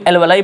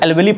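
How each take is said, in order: First: The word ends with an 'eye' sound. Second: The word ends with an 'ee' sound. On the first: "कोई एल्वेलाई पढ़ता है" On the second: "कोई एल्वेली पढ़ता है"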